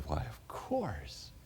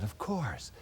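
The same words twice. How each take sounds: First: Slow and much softer, drawn out; slow gentle reply. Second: Said in the usual way. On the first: Retold or imitated. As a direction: answer slowly and quietly, taking time. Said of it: "and I said". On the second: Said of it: "I said".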